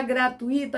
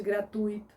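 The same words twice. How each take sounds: First: Gratuito broken as gra-tu-Í-to; stress on the I in gratuito. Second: Gratuito as gra-TÚI-to; stress on TUI in gratuito. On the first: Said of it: "falar gratuito ao invés de". (gratuito com hiato e tônica no I) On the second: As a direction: say gratuito with UI as one syllable, U stressed. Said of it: "ao invés de gratuito". (gratuito com ditongo e tônica no U) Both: Shown as a demonstration.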